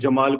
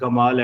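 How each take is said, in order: First: The word begins with a j sound. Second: The word begins with a hard g sound. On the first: This is the standard pronunciation. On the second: This is how Egyptians say it among themselves.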